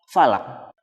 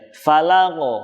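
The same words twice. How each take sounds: First: The final q has no audible release. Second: The final q is released with a light bounce. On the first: The speaker calls it wrong. "tidak terdengar bunyi pantulannya" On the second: The speaker calls it right. "cukup dipantulkan saja"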